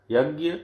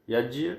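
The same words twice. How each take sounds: First: यज्ञ said as yagya, with gy; यज्ञ with a g-y ending; gya form. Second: यज्ञ said as yajya, with jy; यज्ञ with a j-y ending; jya form. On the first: Teacher contrasting the gy reading. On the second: Teacher giving the other reading, jy. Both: Shown as a demonstration. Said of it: "का शुद्ध रूप है".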